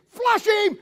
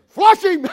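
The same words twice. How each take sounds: First: Shouted much higher; shouted command. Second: Much higher, louder hunting command; barked command. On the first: God commanding the hunt on Adam, shouted command. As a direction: yell it like a hunter to his dog. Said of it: "when you hear God say". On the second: God ordering angel bird dogs, loud hunting command. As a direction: order the dogs to flush him out. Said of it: "When God says". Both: Retold or imitated.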